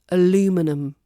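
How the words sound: It is said with an American accent. "But in America"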